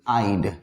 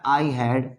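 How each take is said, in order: First: It is said as one short contracted syllable. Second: It is said as two separate full words. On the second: "अगर है हमारा आई हैड तो लिखेंगे ऐसे"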